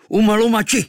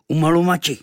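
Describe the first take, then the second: First: High, loud war cry; shout. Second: Smirking. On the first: Kvíkvék shouts as he shoots, high and loud. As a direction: cry it out as you loose the arrow. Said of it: "vykřikl". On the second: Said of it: "ušklíbil a vyřkl zase". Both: Acted.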